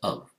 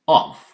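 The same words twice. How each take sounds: First: The word is said lightly, in a reduced form. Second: The word is said with emphasis, in full form. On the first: "Normally it's of" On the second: "If you want to emphasize"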